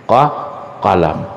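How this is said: The word begins with a deep back q sound. This is the standard classical form.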